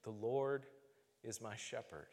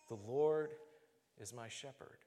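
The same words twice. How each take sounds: First: Softly falling prayer on "The Lord is my shepherd"; whispered prayer. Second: Hushed repeated mantra; repeated quiet prayer. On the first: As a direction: pray it quietly to yourself like a mantra. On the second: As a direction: murmur it again like a mantra, trailing off. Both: Retold or imitated. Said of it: "I would pray those words".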